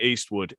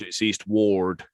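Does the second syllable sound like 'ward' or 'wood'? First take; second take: wood; ward. First: The second syllable sounds like 'wood'. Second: The second syllable sounds like 'ward'. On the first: The speaker calls it wrong. "the way people are saying it" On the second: The speaker calls it right. "It's not Eastwood"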